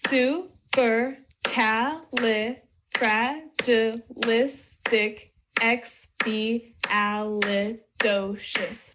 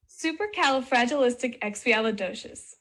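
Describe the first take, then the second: First: "Supercalifragilisticexpialidocious" very slowly, one syllable per beat. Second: Said in the usual way. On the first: Shown as a demonstration. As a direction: break "Supercalifragilisticexpialidocious" into separate beats to count along. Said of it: "Count along as I clap". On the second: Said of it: "Just kidding".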